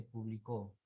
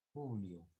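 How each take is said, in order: First: "publicó" as the misreading, three syllables ending in -CÓ; palabra mal leída. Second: "Publio" with the stress on PU and no c; lectura correcta. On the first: Retold or imitated. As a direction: imitate the misread word "publicó". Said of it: "por qué cambias de palabra". («publicó», lectura equivocada que termina en -CÓ) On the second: Shown as a demonstration. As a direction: model the name "Publio", falling after PU. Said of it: "Ahí donde dice publicó". («Publio» con fuerza en PU, sin c)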